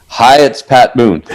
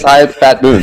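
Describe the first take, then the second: First: Lightly voiced smooth TV host, slowed; a hint of a showman signing on; 1970s TV special host. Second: Lightly voiced smooth TV host sign-on; a hint of a variety show host's greeting; 1970s TV special host. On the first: [name] greets a late-night caller like a TV host. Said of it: "He said it like that". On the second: [name] introduces himself like a TV special host. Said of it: "like it was a nineteen seventy T V special".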